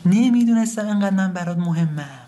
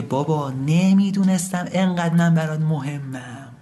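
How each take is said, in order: First: High, falling cry of regret; wailing lament. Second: Restrained lament. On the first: Son grieves over his dead father, wailing lament. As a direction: wail it out, pitched high. Lament repeated with more force. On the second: Son tells his dead father of his regret, restrained lament. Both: Acted.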